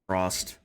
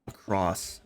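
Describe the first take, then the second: First: The word ends with an added t sound. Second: The word ends without any t sound. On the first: The speaker calls it wrong. "I talk like my mom" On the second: The speaker calls it right. "There's no T"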